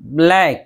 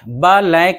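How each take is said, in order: First: The b and l are joined directly. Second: An extra vowel separates the b from the l. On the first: The speaker calls it right. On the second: The speaker calls it wrong. "बा लैक नहीं, बा पर ज़बर नहीं आना चाहिए"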